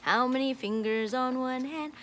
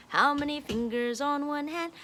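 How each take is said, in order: Both takes have the same delivery.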